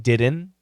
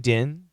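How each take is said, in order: First: The word is said in full with its consonants. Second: The word is reduced, dropping the middle and final consonants. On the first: "So didn't can become" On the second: "Can become din"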